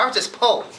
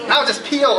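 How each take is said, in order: First: Said in the usual way. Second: P O spelled letter by letter, no R; the word poor spelled as P O, too broke for the R; spelled out without R. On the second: Shown as a demonstration. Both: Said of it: "couldn't even afford the other O R".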